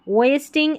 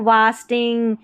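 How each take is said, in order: First: The first vowel is an 'ay' sound. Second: The first vowel is an open 'ah' sound. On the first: The speaker calls it right. "वेस वेस्टिंग वेस्टिंग" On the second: The speaker calls it wrong. "इसको वास्टिंग या वेस्टिंग ऐसे नहीं"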